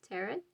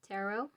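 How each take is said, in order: First: Said in the usual way. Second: "Tarot" ending in a long OH; alternative pronunciation. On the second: Shown as a demonstration. Tarot reader noting how some people say it, alternative pronunciation. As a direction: say "Tarot" as TA-roh, final T silent. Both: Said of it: "as some say".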